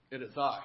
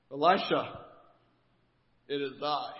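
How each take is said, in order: First: Grander pompous commander. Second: Pompous commander. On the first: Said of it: "clears throat". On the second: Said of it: "I imagine this scenario going down something like this". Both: Retold or imitated.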